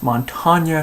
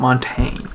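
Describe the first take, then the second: First: The name ends with an open 'ah' vowel. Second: The name ends with an 'ain' sound. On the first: The speaker calls it right. "it's Montagna" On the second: The speaker calls it wrong. "not Montaigne"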